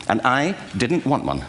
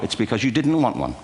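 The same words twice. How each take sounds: First: Didnt drawn out slowly, falling; slow down for the punchline; slow wry aside. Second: Said in the usual way. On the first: Shown as a demonstration. Admitting to the audience, slow and wry.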